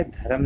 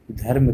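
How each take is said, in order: First: धर्म split as dha-ram; wrong pronunciation. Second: Said in the usual way. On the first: Shown as a demonstration. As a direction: open a vowel between र and म in धर्म. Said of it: "नहीं कहना". (धर्म को ध-रम बोलें) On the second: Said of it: "कहना है".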